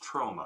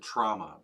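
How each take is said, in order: First: The first vowel sounds like 'oh'. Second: The first vowel sounds like 'ah'. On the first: The speaker calls it right. "but it's trauma. ... it's an O, not an A" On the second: The speaker calls it wrong. "some people pronounce it trauma"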